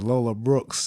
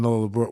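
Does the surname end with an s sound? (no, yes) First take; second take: yes; no. First: The surname ends with an added s sound. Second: The surname ends without an s sound. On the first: The speaker calls it wrong. "I'm gonna say it wrong on purpose" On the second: The speaker calls it right. "I know her name [name]"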